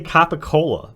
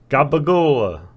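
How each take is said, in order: First: The word is said in its standard form. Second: The word is said in a distorted slang form. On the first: This is the intended name of the cured meat. The speaker calls it right. "he's trying to say capicola" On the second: This is the character's mangled version of the name. The speaker calls it wrong. "but he's saying like gabagola"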